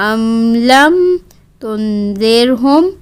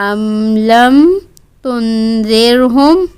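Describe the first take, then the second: The two takes are said the same way.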